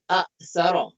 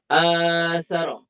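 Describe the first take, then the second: First: A glottal catch follows the first short vowel. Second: The first vowel is long with no catch. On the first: This is the original underlying form. "Asalnya hamzah kemudian hamzah lagi" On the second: This is the form actually used. "Kemudian dibadalkan jadi asara"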